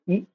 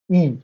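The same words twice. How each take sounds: First: Short "E", cut off quickly; short vowel. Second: Long "E", held out; long vowel. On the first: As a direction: say "E" as a brief vowel. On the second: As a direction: stretch "E" into a sustained vowel. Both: Shown as a demonstration. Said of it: "that is the length of the pronunciation".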